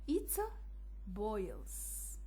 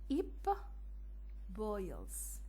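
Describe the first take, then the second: First: The first word ends with a t sound. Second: The first word ends with a p sound.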